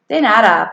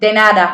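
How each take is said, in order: First: The phrase is said at an ordinary, careful pace. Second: The phrase is said quickly, run together as one word.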